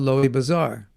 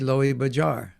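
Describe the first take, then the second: First: The second word has a Z sound. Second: The second word has a J sound.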